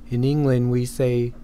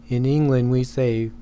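No difference in how they are said.

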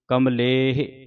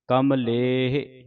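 Both takes have the same delivery.

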